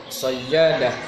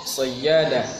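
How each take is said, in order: The two takes are said the same way.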